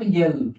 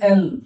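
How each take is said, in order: First: It begins with a y sound before the vowel. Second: It begins directly with a plain vowel. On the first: The speaker calls it wrong. "This is not यल" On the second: The speaker calls it right. "याचं pronunciation एल"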